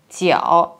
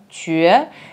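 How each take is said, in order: First: The syllable is pronounced jiao. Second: The syllable is pronounced jue. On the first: The speaker calls it wrong. "китайцы часто произносят это слово «тяосэ», как в слове «угол»" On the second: The speaker calls it right. "нормативное произношение этого иероглифа именно чуэ"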